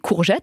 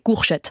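First: The middle consonant is a voiced zh sound. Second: The middle consonant is a voiceless sh sound. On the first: This is the standard French pronunciation. "ils n'ont pas des courgettes" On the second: This is the regional Alsatian pronunciation. "en Alsace, les gens ... ils ont des courchettes"

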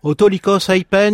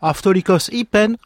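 First: It uses the Erasmian school pronunciation of Greek. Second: It uses the modern Greek pronunciation of Greek. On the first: This is the Renaissance school reading of the Greek. The speaker calls it wrong. "le grec érasmien" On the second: This follows the continuous living Greek tradition. The speaker calls it right. "il aurait dit"

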